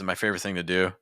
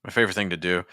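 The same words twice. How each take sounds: The two takes are said the same way.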